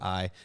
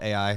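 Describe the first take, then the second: First: The name is said as one syllable. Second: The name is said as two syllables. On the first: The speaker calls it right. "sometimes I'll call it I" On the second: The speaker calls it wrong. "sometimes I'll call it A I"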